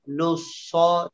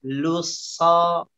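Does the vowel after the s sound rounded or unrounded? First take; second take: rounded; unrounded. First: The vowel is said with rounded, pushed-forward lips. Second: The vowel is said without rounding the lips. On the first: The speaker calls it wrong. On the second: The speaker calls it right. "seperti itu ya"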